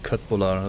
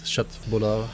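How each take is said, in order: First: It is said with a German pronunciation. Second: It is said with a Swedish pronunciation. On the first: The speaker calls it wrong. "not fucking köttbullar ... German pronunciations of Swedish words" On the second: The speaker calls it right. "that's how you say it"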